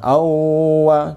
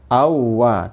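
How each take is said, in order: First: The doubled w is held with a nasal hum. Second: The doubled w is pressed but not nasalized. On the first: The speaker calls it wrong. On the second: The speaker calls it right. "ditekan inaber iya, ditekan. Tapi enggak dengan gunnah"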